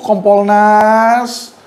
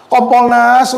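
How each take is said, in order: First: Slowly drawn-out name, called out. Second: Said in the usual way. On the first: Real, not acted. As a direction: stretch the name out like summoning them. Calling out to Kompolnas directly.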